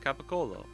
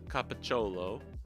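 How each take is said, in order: First: It is said with a 'k' sound. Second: It is said with a 'ch' sound. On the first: The speaker calls it right. "It's ko. It's not cho" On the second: The speaker calls it wrong. "It's got to be the C H sound"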